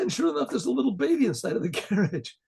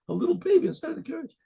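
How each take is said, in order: First: Said in the usual way. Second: Put-on "little baby" repeated much higher and fast; amazed repeat. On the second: Shown as a demonstration. Storyteller marvels at the baby in the carriage, higher and faster. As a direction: replay it high and quick, full of wonder.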